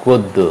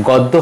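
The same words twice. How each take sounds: First: গদ্য with closed "o"; গদ্য with both vowels rounded; rounded first vowel. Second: গদ্য with open "aw"; open first vowel. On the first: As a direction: say গদ্য as "god-do". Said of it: "হবে". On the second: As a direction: say গদ্য as "gawd-do". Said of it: "হবে না". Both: Shown as a demonstration.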